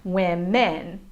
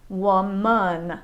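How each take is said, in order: First: "women" as WIM-men; full "eh" in the end of "women"; careful "women", second syllable like "men"; no schwa. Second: "woman" as WUH-mun, drawn out; careful "woman" with an uh in the last syllable; schwa second syllable. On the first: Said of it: "does not have a schwa sound". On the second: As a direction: relax the end of "woman" to "mun". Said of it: "has a schwa sound in the second". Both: Shown as a demonstration.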